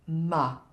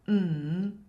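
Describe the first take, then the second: First: The consonant sound is followed by an 'uh' vowel. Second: The consonant sound is said alone, without a vowel. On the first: The speaker calls it wrong. "not ma" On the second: The speaker calls it right. "say mm"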